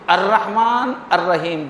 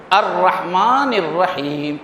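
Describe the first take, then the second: First: Said in the usual way. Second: الرحمن الرحیم drawn out very slowly, each syllable held; slow verse recitation. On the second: Shown as a demonstration. Teacher reciting the verse to students, slow and drawn out. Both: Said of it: "دوسری جو آیت ہے".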